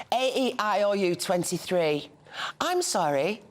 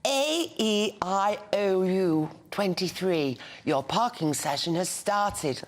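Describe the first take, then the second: First: Flat Birmingham vowels. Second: Put-on slow, careful posh English accent. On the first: Retold or imitated. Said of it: "doesn't understand the flat vowel". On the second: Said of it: "put on a posh voice".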